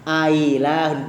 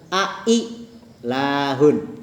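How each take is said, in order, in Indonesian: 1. Hamzah kedua dilunakkan, tidak sepenuhnya jelas. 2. Kedua hamzah diucapkan dengan jelas. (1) "Hamzah yang kedua nggak begitu jelas" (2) "jelas nggak hamzahnya?"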